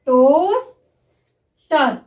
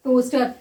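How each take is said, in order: First: Drawn-out word, spoken while writing it; slow dictation. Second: Said in the usual way. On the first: Shown as a demonstration. Shorthand teacher dictates a word to students, drawn out. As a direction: stretch it slowly for the class to write. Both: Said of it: "देखिए".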